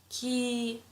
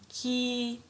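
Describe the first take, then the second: First: The vowel is held long. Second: The same.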